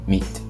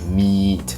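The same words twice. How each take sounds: First: The vowel is clipped short. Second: The vowel is held long. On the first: "you just say meat" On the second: "instead of saying like meat"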